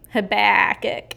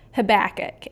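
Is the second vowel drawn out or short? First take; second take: drawn out; short. First: The second vowel is drawn out, Texan style. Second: The second vowel is short and plain.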